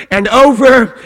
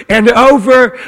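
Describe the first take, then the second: No difference in how they are said.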